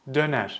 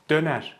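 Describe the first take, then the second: No difference in how they are said.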